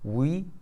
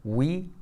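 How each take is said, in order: No difference in how they are said.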